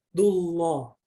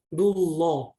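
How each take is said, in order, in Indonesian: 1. Huruf 'l' pada Allah dibaca tebal. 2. Huruf 'l' pada Allah dibaca tebal.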